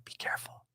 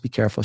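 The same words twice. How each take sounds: First: Hushed, eerie whisper; near-silent cautionary whisper; whispered warning. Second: Said in the usual way. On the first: Retold or imitated. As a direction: breathe it out as a secret warning. Eerie warning from the man retold.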